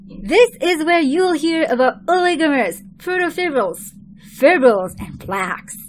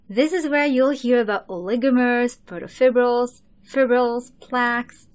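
First: The list is said in a lively, energetic voice. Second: The list is said in a flat, low-energy voice. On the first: The speaker calls it right. "Again. ... How's that?" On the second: The speaker calls it wrong. "that sounded boring"

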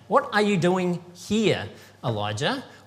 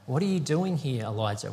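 First: It is asked in an accusing tone. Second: It is asked in a caring tone.

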